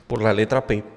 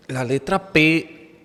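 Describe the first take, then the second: First: Said in the usual way. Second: La letra P said slowly, higher and louder, leaning on the P; emphatic stress on P. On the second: Shown as a demonstration. Teacher stressing la letra P to the class, slow and emphatic. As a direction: spell out la letra P slowly with weight on P.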